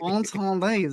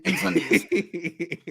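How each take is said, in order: First: The title is pronounced with French sounds. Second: The title is pronounced with English sounds. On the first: The speaker calls it right. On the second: The speaker calls it wrong.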